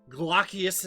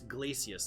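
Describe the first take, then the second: First: The name is pronounced like 'Glaucius'. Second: The name is pronounced like 'Glacius'. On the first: This is the official pronunciation. "as they pronounced it in the game" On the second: This is how the speaker naturally reads it. "It's Glacius to me"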